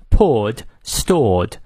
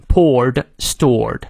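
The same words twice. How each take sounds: First: British "poured", "stored" with no r sound; British non-rhotic demonstration; British pronunciation. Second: "poured", "stored" with American r and a final d; voiced D ending. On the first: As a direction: say "poured" and "stored" the British way, long pure vowel. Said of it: "如果是英式发音呢". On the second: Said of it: "最后结尾的时候这个E D也都念的". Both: Shown as a demonstration.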